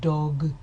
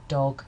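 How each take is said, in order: First: The consonants are strongly voiced throughout. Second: The consonants have little voicing in them. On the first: "If I produced that word with more voiced plosive consonants, it would sound like this" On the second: "both consonants in the word dog, um, if I say it on its own, dog, dog, are partially devoiced"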